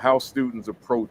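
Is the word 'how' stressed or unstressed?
unstressed. The word 'how' is not stressed. The speaker calls it wrong. "I said that with the wrong emphasis though"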